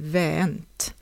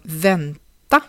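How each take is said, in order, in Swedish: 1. Slutvokalen försvinner, och vokalen är förlängd. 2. Ordet behåller sin obetonade slutvokal.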